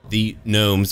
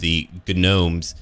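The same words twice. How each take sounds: First: The word is said in its standard way. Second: The word is said in a joking, altered way.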